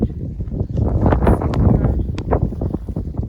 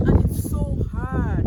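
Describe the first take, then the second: First: Very slow strained groan; drawn-out strained groan. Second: Straining. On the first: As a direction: strain and stretch the words out. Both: Real, not acted. Straining at a hard snowball.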